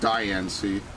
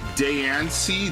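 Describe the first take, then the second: First: The first syllable sounds like 'die'. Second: The first syllable sounds like 'day'. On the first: The speaker calls it right. "It should be die" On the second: The speaker calls it wrong. "That's not how you say diamond"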